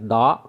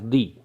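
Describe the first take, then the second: First: The vowel is a short, weak 'uh' sound. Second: The vowel is a long 'ee' sound. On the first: The next word starts with a consonant sound. "Sometimes we pronounce definite article the as da" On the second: The next word starts with a vowel sound. "sometimes we pronounce the as the"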